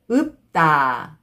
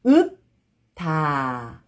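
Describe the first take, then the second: First: 읍다 joined as 읍따, tense tt; read together. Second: 읍다 slowly split as 읍, pause, 다; syllable by syllable. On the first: Teacher shows how it reads together, linked pronunciation. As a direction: run 읍다 into one word with a hard 따. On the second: Teacher breaking a word down for learners, syllable by syllable. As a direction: stop on p in 읍다, then a separate 다. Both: Shown as a demonstration. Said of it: "Just pronounce".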